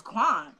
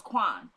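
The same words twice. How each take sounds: First: Name thrown back in mock disbelief; imitated incredulous echo. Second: Low-pitched, falling one-word answer; imitated matter-of-fact reply. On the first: Julius echoing his brother's name back, mildly incredulous. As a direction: echo the name like you can't believe it. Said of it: "He goes". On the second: Woman naming the brother to Julius, low and final. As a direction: drop the name low, as a plain statement. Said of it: "She goes".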